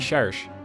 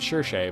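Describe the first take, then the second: First: The name is pronounced the French way. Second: The name is pronounced an anglicized way. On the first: "if it's French, it'd be Cherche" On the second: "so I always said Cherche"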